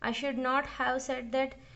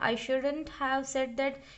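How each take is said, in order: First: Should and not are said as separate words. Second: Should not is contracted into one syllable pair. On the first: "शुड नॉट भी होगा" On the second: "शुडंट भी होगा"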